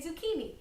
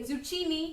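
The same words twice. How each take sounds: First: The middle consonant is a hard K sound. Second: The middle consonant is a ch sound. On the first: The speaker calls it right. "you say" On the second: The speaker calls it wrong. "You don't say"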